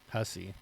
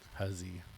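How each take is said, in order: First: The middle consonant is a hissing s sound. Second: The middle consonant is a buzzing z sound. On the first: "So I would say it with S's" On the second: "not Z's"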